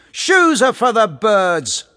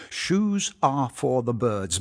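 First: High, loud, slow sarcastic yell. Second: Said in the usual way. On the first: Acted. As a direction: yell it back over your shoulder, mocking. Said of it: "he yelled sarcastically over his shoulder". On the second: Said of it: "means something like".

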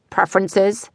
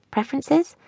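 First: "preferences" as a tentative, modest question; "preferences" asked awkwardly at the usual volume; awkward query. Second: "Preferences" high and soft, rising sharply; "Preferences" lifted high in soft disbelief; puzzled echo. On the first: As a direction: land hesitantly on "preferences" without much lift. Awkward boyfriend asking about condoms. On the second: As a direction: echo "Preferences" as a baffled, quiet question. Puzzled echo of boyfriend's word. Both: A narrator's reading.

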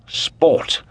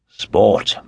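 First: Sport repeated high and airy; lifted sport. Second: Said in the usual way. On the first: Acted. Lord Antony repeating sport to the Comtesse, high and airy. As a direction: toss off sport a second time, higher. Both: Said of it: "with his jovial, loud, and pleasant voice".

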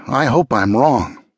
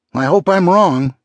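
First: Slow, subdued foreboding; worried. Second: Much higher, urgent repeat; insistent worry. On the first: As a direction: say it slowly, dreading the answer. Grim worry, first of two takes. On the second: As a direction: repeat it with rising urgency, pitched high. Same worry repeated with more urgency. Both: Acted.

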